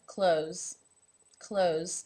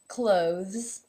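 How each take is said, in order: First: It sounds like close, with no th. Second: A voiced th is heard before the z. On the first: "it becomes the exact same pronunciation as the word close" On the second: "official pronunciation would be clothes, in which you have the O as a no, vzz, the voiced TH and z ending"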